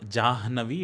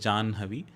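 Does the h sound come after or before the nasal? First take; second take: before; after. First: The h sound comes before the nasal. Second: The h sound comes after the nasal. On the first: The speaker calls it wrong. "It's not" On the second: The speaker calls it right. "it is ... you utter that nasal sound first and then expel the air"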